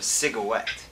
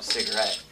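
First: "cigarette" said as "cigawet", R turned to W; mispronounced cigarette. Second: Said in the usual way. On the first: Retold or imitated. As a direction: say "cigarette" like "sig-uh-WET". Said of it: "She called it a cigarette". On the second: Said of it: "she didn't call it a cigarette".

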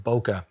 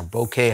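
First: Said in the usual way. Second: "bokeh" ending in a long AY sound; alternative pronunciation. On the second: Shown as a demonstration. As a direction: say "bokeh" as boh-KAY. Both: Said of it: "however you wanna pronounce it".

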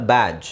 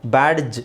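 First: ಬ್ಯಾಡ್ಜ್ with only a J sound at the end; silent D. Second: ಬ್ಯಾಡ್ಜ್ with an audible hard D before the J; D pronounced. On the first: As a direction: drop the D in ಬ್ಯಾಡ್ಜ್. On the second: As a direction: sound out the D in ಬ್ಯಾಡ್ಜ್. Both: Shown as a demonstration. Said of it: "ಅಂತ ಹೇಳೋ ಅವಶ್ಯಕತೆ ಇಲ್ಲ".

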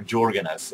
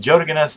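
First: Jorgen S with a J sound, as JOR-gen; English pronunciation of Jorgen. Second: Jorgen S with a Y-like start, as YOR-gen; native pronunciation of Jorgen. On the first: Vlogger summing up correct versions, English Jorgen with a J. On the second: Vlogger summing up correct versions, native Jorgen with a Y. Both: Shown as a demonstration. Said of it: "the correct way to pronounce my, my name".

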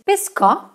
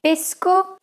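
First: Pescò with the final O hit hard; stress on final O. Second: Said in the usual way. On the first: Shown as a demonstration. Teacher contrasting two Italian words, stress on the O of pesco. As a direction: punch the last vowel of pesco. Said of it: "a grave accent on the O". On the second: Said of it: "the second word has a grave accent".

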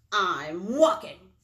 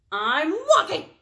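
First: Loud, slow, grudging reply; grumpy storybook bird forced to answer. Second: Loud, high, irritated snap; exasperated storybook bird; snapping. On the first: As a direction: stretch it out in a grumble. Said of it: "he was grumpy". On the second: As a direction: snap it back at a nosy friend. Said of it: "snapped Bird". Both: A narrator's reading.

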